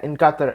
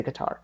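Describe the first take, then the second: First: Qatar said as "KAH-ter"; odd pronunciation. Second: Qatar said as "kuh-TAR"; settled pronunciation. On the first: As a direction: stress the first syllable of Qatar, swallowing the second. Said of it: "Why did I say it like that". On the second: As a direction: stress the second syllable of Qatar, with an open TAR. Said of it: "I'm just gonna say". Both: Shown as a demonstration.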